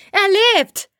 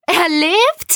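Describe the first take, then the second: First: High, jubilant cry with falling end; euphoric exclamation. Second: High, rising question of disbelief; astonished question. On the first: A narrator's reading. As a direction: announce it joyfully to everyone. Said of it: "rief Vitali euphorisch". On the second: Acted. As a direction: ask it amazed, pitch shooting up. Jelena reacts to the news.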